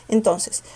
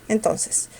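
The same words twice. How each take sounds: The two takes are said the same way.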